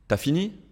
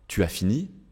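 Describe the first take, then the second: First: The vowel of tu is dropped before as. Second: The vowel of tu is fully pronounced. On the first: This is casual, informal speech. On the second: This is the standard, formal form.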